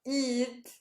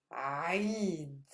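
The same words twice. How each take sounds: First: "Eid" as a plain English ee sound, no throat; light English "Eid", tongue forward; wrong Eid. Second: "Eid" with the tongue root pulled back to the throat wall; a throaty ayn-start "Eid"; Arabic Eid. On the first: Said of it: "not Eid". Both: Shown as a demonstration.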